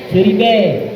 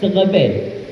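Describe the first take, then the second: First: It is said with an 'i' sound in the middle. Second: It is said with an 'e' sound in the middle. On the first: "bahasa Acehnya seribe" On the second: "Kalau seandainya pergi ke Aceh, ke Montasi sana"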